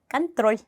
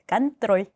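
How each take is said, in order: First: The final l sound is soft, with a y-glide. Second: The final l sound is soft, with a y-glide.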